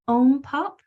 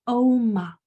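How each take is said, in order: First: A p sound is inserted after the m. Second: No p sound follows the m. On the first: The speaker calls it wrong. "it's not ompop" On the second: The speaker calls it right. "it's omop"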